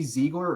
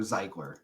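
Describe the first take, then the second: First: "Ziegler" opening like the word "see", but with a z; ZEE-gler pronunciation. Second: "Ziegler" with a long i as in "eye"; ZYE-gler pronunciation. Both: Shown as a demonstration. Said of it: "guess how you pronounce that name".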